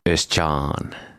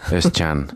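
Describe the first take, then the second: First: The second-syllable vowel is long. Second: The second-syllable vowel is short. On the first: The speaker calls it wrong. "No nyt se meni samalla tavalla kuin Mikalla" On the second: The speaker calls it right. "Joo, lyhyt A"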